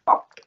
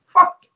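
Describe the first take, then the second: First: Said in the usual way. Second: High, loud outburst; shouted. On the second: Real, not acted. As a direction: yell the word in disgust. Repeated in disgust.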